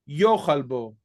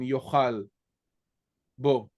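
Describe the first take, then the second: First: The stress is on the first syllable of yochal. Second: The stress is on the last syllable of yochal. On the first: The speaker calls it right. "here has the accent on the second to last syllable" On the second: The speaker calls it wrong. "usually with the accent on the last syllable"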